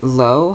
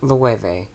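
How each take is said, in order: First: The name sounds just like the word 'low'. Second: The name does not sound like 'low'. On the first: The speaker calls it wrong. "I pronounced it Low throughout this video" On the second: The speaker calls it right. "The brand is pronounced Loewe"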